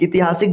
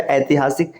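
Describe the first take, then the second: First: ऐतिहासिक said as "itihaasik"; wrong first vowel. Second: ऐतिहासिक said as "aitihaasik"; correct first vowel. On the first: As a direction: open ऐतिहासिक on a short "i". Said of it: "जैसा कोई शब्द नहीं है". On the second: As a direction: open ऐतिहासिक on a full "ai". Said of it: "इसका शुद्ध रूप है". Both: Shown as a demonstration.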